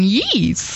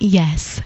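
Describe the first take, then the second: First: The vowel is drawn out and ends in z. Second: The word is said short and ordinary. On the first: The speaker calls it wrong. "I've just got a really strange habit of going" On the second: The speaker calls it right. "I mean"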